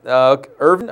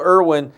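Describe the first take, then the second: First: "Irvin" said with a v sound and a questioning rise, ER-vin. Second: "Irwin" said with a clear w sound, ER-win. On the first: Correcting a player's name on air, "Irvin" with a v, asked. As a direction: try "Irvin" with a v, unsure. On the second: Checking a player's name on air, "Irwin" said with a w. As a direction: read out "Irwin" with a w, as first written. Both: Shown as a demonstration. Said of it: "is it Irwin or Irvin".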